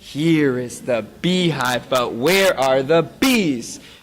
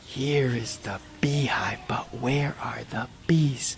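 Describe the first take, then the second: First: It is said at normal loudness. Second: It is said very quietly.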